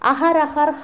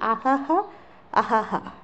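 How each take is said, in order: First: An 'r' sound is heard in the word. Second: No 'r' sound is heard in the word. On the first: The speaker calls it wrong. "നിങ്ങളുടെ പുസ്തകത്തിൽ" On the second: The speaker calls it right. "ഇറ് നമ്മൾ ഉച്ചരിക്കാറില്ല"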